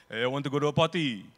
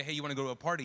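First: Loud, fast mock Arab accent, "party" as "patty"; thick Arab accent. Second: Said in the usual way. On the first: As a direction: imitate an Arab friend's accent at full volume. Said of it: "thick Arab accent with speaking". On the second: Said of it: "there is no P sound".

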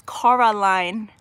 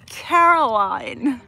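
First: "Coraline" with an "or" sound in the first syllable; mispronounced name. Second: "Caroline" with a "care" first syllable, louder; corrected name pronunciation. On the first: Retold or imitated. Streamer quotes how somebody says her name, "Coraline" with KOR first. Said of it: "somebody says Coraline". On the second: Shown as a demonstration. Streamer corrects a viewer on her name, "Caroline" emphatically as CARE-o-line. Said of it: "but my name is Caroline".

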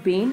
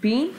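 First: Bane with an "ay" vowel; wrong vowel. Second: Bean with an "ee" vowel; corrected vowel. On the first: Teacher shows pupils what not to say, ay in bane. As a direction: say bane to rhyme with lane. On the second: Teacher gives pupils the correction, ee sound in bean. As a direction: say bean to rhyme with seen. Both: Shown as a demonstration. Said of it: "it's not bane".

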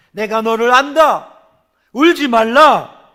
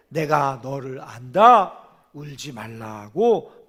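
First: Louder and slower, a proclaiming "울지 말라"; commanding Jesus voice. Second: Gentle Jesus voice. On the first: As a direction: declare it like a voice from heaven, drawn out. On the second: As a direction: lower and slow, tender "울지 말라고". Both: Acted. Jesus's words voiced in sermon.

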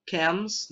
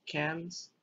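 First: CAMS said with a clear M at the end; "Cams" set apart from "cans"; careful correction. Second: "cans" said softly with an N at the end; "cans" with N, softer than CAMS; rejected word. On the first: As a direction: say "Cams" distinctly, closing the lips on the M. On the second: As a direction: drop "cans" in quietly as the wrong word. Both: Shown as a demonstration. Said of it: "not cans".

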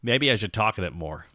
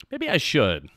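First: Normal voice. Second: Little guy voice. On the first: Streamer considering using the normal voice, lower register. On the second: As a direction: pop back up into the chibi voice. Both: Shown as a demonstration.

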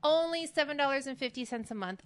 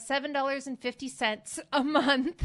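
First: "Only" leaned on, then a settled falling finish; confident restatement. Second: Working out the sum, a bit louder, ending on a rising question; tentative figure tossed out mid-calculation; unsure guess. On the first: Host correcting herself for viewers, sure and firm on "Only". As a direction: state the price firmly, stress on "Only". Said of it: "You'd think I'd remember that". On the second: Host fumbling the discount math on camera, unsure rising guess. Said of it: "I am so bad at math". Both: Real, not acted.

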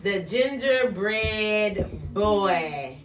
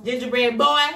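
First: Very slow title announcement; title read slowly. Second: Put-on "Gingerbread Boy" said louder, pressing on "Boy"; emphatic title. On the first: Teacher announces the book title to the class, slowly. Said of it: "a book from Mister Jace". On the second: Teacher stresses "Boy" over the kids, louder. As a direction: insist on "Boy". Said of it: "Gingerbread man". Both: Shown as a demonstration.

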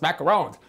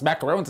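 First: "macaroons" said the right way, stressed on the last syllable, "roons"; correct pronunciation. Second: "macaroons" said the wrong way, the way people commonly say it; wrong pronunciation. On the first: Host correcting himself with the right "macaroons". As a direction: give the proper "macaroons" clearly. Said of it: "it's macaroons". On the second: Host showing the wrong way to say "macaroons". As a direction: show the mistaken "macaroons" first. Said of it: "It's not pronounced macaroons". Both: Shown as a demonstration.

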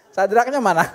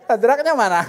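Both takes have the same delivery.

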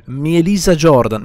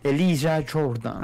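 First: Mielisa Jordan said with an extra Mi- at the start; mispronounced name. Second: Elisa Jordan said slowly and carefully, no Mi-; slow, clear correction: Elisa Jordan; corrected name. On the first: Real, not acted. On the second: Shown as a demonstration.

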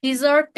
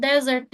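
First: Dessert with the stress on the second syllable, di-ZERT; Dessert said di-ZERT, the sweet; dessert pronunciation. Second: Desert with the stress on the first syllable, DEZ-ert; desert said DEZ-ert, the sand; desert pronunciation. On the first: Teacher telling students apart Dessert for sweets, stressed di-ZERT. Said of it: "Eğer tatlı diyeceksem dessert diye okuyorum". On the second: Teacher telling students apart desert for sand, stressed DEZ-ert. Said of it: "okunuşu deserts". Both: Shown as a demonstration.

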